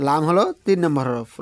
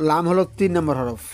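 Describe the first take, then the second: No difference in how they are said.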